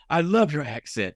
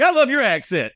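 First: Put-on slow, drawn-out admiration in own accent; retold British station manager. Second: Very high, excited echo; mock gushing reply. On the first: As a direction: lightly quote an admirer, lingering on LOVE. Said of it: "I'm not gonna do his accent". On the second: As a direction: throw the compliment back in a high squeal.

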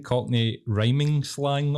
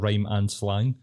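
First: "rhyming slang" run as RHYME-ing, drawn out slowly; demonstrated mispronunciation. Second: "rhyme and slang" as separate words with "and"; corrected pronunciation. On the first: Co-host echoing how friend says "rhyming slang", demonstrating. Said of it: "The way you're saying it". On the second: Co-host correcting friend to "rhyme and slang", demonstrating. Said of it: "instead of rhyme and slang". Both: Shown as a demonstration.

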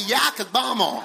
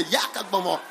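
First: Hammed-up American accent, broad "ah" in "Yakagbomo". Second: Lower, playful mock British accent on "Yakagbomo". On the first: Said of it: "American accent". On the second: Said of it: "With a British accent, you can say". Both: Shown as a demonstration.

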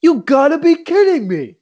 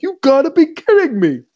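First: Put-on high, loud incredulous old coach; mock Lou Holtz. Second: High, loud incredulous coach quote; hammed-up old coach disbelief; retold coach catchphrase, much higher; mock Lou Holtz. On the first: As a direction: imitate a coach in disbelief. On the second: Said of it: "he just was like".

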